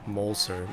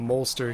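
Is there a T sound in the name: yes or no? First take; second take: no; yes. First: The name is said without a T sound. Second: The name is said with a T sound. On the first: The speaker calls it right. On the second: The speaker calls it wrong.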